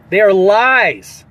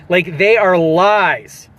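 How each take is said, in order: First: Slow, insistent "ARE" in "They are lies"; emphatic repeat. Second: Steady stress on "are", slow; slow, deliberate "they ARE lies"; firm repeat. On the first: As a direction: hammer home "They ARE lies" slowly. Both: Acted.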